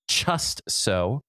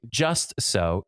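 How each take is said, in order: First: The word starts with a ch sound. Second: The word starts with a plain j sound. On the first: "replacing C H for J" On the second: "instead of saying just so"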